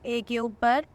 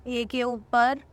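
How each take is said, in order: Both takes have the same delivery.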